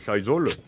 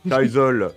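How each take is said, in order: First: The ending does not rhyme with 'puzzle'. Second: The ending rhymes with 'puzzle'. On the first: The speaker calls it wrong. "au lieu de Shaizol" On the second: The speaker calls it right. "nous disons puzzle, kid paddle, Shaizol"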